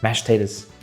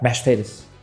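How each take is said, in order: First: The words are run together in a southern accent. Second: The words are run together in a southern accent.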